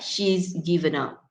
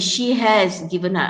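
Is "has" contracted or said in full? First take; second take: contracted; full. First: The word has is reduced to a z sound. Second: The word has is pronounced fully. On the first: "You reduce it to is only" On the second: "ni patutnya has"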